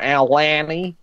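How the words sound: The name is said in an Australian way. "And the Australians were like"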